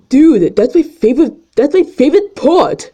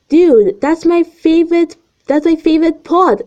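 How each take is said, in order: First: It is said in a put-on teenage boy voice. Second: It is said in a normal reading voice.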